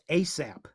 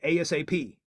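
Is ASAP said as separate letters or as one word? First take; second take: one word; letters. First: It is said as a single word. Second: Each letter is spelled out separately.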